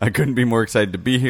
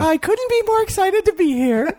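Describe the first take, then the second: First: It is said in the speaker's own normal voice. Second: It is said in a put-on imitated voice. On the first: "her quote was" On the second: "Do it in her voice"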